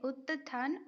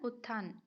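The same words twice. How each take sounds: First: उत्थान split as ut-than with a held t; broken into parts. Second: Said in the usual way. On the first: Shown as a demonstration. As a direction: sound out उत्थान in two pieces, ut, than. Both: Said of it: "तो उत्थान कहा जाता है".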